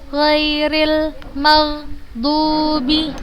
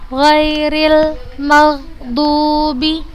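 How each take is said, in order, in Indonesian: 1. Vokal pada 'dubi' dibaca panjang. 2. Vokal pada 'dubi' dibaca panjang.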